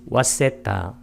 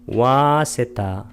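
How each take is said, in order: First: The first vowel is said short. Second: The first vowel is drawn out long.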